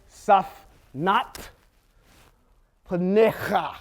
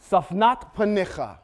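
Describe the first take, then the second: First: Slow, syllable by syllable: safnat panecha; each syllable of safnat panecha drawn out; sounded out slowly. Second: Said in the usual way. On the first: Shown as a demonstration. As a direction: carefully spell out safnat panecha for learners. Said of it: "That's how you get".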